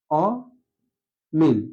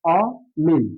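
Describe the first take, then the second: First: অমিল drawn out very slowly, open ɔ held; slow model pronunciation. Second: অমিল with an open ɔ, not o; correct pronunciation. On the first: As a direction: stretch অমিল slowly like a teacher. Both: Shown as a demonstration. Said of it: "যেটা সঠিক উচ্চারণ সেটা হবে".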